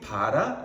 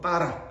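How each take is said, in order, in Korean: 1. 첫 자음은 부드럽고 이완된 b 소리입니다. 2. 첫 자음은 긴장되고 강한 pp 소리입니다. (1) "우리가 흔히 바라 어, 이렇게 표현하지만" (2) "좀 더 정확한 발음을 한다면 보통 빠라"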